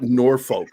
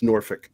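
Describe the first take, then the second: First: Norfolk with a full "foke" second syllable; common pronunciation. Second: Norfolk with a short "fick" ending; Virginian pronunciation. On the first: Showing how most people call it, Norfolk as "NOR-foke". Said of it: "Most people call it Norfolk". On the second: Showing how Virginians call it, Norfolk as "NOR-fick". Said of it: "if you're from Virginia". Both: Shown as a demonstration.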